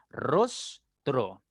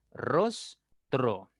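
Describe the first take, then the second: First: Rostro split slowly as ros-tro; syllable by syllable. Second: Said in the usual way. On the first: Shown as a demonstration. Teacher to pupils, sounding out rostro in syllables. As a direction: sound out rostro in two beats. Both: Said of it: "voy a separar la S de la T R".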